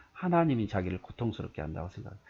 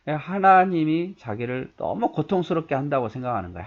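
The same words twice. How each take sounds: First: Said in the usual way. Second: 하나님이 said higher and louder, leaned on hard; stress on God. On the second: Shown as a demonstration. Preacher stressing who Job blames: 하나님이 hit hard. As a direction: punch the word 하나님이 as the culprit. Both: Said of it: "하나님이. 누가?".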